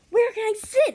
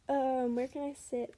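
First: It is said more loudly. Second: It is mumbled quietly.

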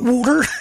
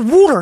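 First: It is said in a standard American accent. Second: It is said in a Philadelphia accent. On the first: The speaker calls it wrong. "not water" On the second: The speaker calls it right. "the Philly accent's not right. We say water"

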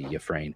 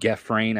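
First: The first G is a soft sound. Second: The first G is a hard sound. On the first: The speaker calls it right. "Kind of a soft G" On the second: The speaker calls it wrong. "I don't think the G comes across so hard. I don't think it's like Gefrain"

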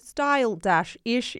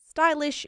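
First: The word is said slowly, split into parts. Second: The word is said quickly as one unit.

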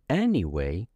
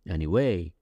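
First: The stress falls on the first syllable. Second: The stress falls on a later syllable.

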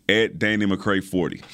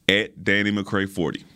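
No difference in how they are said.

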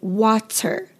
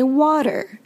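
First: The middle t is a crisp, released t. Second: The middle t is a quick d-like flap. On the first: This is how speakers outside America say it. "Some English speakers in other countries say water" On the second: This is how Americans say it. "Americans say water"

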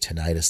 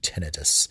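First: It is said the American way. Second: It is said the British way.

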